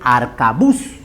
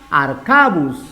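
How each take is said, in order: First: The stress falls on the last syllable. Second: The stress falls before the last syllable. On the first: The speaker calls it right. "La forma correcta es arcabuz. Por lo tanto, su última sílaba es tónica" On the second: The speaker calls it wrong. "Si pongo acá"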